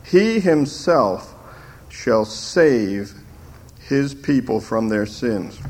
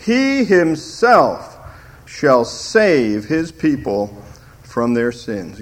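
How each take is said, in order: First: He slowed and lifted; slower, weighty He himself; stress on HE. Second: HE himself, slow and weighty; stress on HE. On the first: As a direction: press the word He again. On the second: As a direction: lean hard on the word he, slowly. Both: Shown as a demonstration. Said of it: "the emphasis is on the word he".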